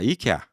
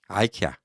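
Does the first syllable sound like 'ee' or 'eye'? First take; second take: ee; eye. First: The word starts with an 'ee' sound. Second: The word starts with an 'eye' sound. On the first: "아 이케아가 뭐니" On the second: "아이케아 촌스러워"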